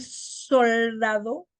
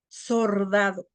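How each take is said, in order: First: Said in the usual way. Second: Slow "sordado" for soldado. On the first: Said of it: "En vez de decir soldado". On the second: Shown as a demonstration. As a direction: turn the l to r, "sordado". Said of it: "cambiamos L por R".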